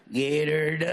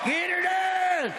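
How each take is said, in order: First: Low catchphrase. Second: High, slow, stretched-out catchphrase; high catchphrase holler. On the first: Comedian opening the act for the crowd, low catchphrase. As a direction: say it low, stretching the last word. Performs his catchphrase first time. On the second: Comedian rousing the crowd, high drawn-out catchphrase. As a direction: holler it high and hold the last word. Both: Acted.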